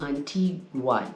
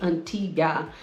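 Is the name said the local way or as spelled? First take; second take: as spelled; local. First: The name is said following its written spelling. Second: The name is said the way locals say it. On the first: This is how the name is written. "but it's written Antigua, G U A" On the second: This is how people there say it. "They say Antigua"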